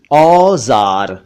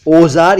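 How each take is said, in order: First: "औजार" with long drawn open au; correct au vowel. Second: "औजार" mispronounced "ozaar", closed o; wrong o vowel. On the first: Teacher models औजार for learners, slow au sound. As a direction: say "औजार" slowly as "aww-zaar". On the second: Teacher rejects mistaken औजार, o sound. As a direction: start "औजार" with "oh". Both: Shown as a demonstration. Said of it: "औजार या औरत नहीं".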